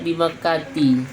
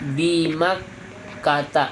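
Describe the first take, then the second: First: The name ends with an 'i' vowel. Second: The name ends with an 'a' vowel. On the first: The speaker calls it wrong. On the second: The speaker calls it right.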